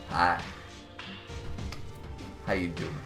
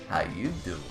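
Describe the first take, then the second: First: It is said in a plain voice. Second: It is said in a Joey Tribbiani impression.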